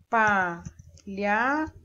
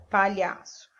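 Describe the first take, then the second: First: "palhaço" stretched slowly into pa-lha-ço; syllable by syllable. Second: Said in the usual way. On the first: Shown as a demonstration. Teacher counting syllables for pupils, very slowly. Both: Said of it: "Eu abro a boca três vezes".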